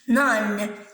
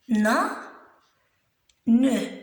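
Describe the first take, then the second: First: It is said as one syllable, final e silent. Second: It is split into two syllables, final e voiced. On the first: "quand je le lis, je le lis comme ça. Nan, sans prononcer E" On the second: "Quand je découpe le mot en syllabes, je peux dire ne"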